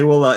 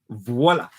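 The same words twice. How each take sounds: First: The word begins without a V sound. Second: The word begins with a clear V sound. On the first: The speaker calls it wrong. "don't say voila" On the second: The speaker calls it right. "It's voila with a V"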